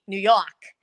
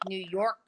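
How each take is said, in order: First: It has a strong Brooklyn New York accent. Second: It has a weakened, less New York accent. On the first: This is how the speaker used to talk. "Normally it would be" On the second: The speaker's speech has started to change. "Now it was like"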